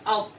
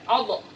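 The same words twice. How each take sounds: First: The final consonant stops cleanly without an echo. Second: The final consonant ends with a bouncing echo. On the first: The speaker calls it right. "harus dibaca out" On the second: The speaker calls it wrong. "Jangan dibaca out"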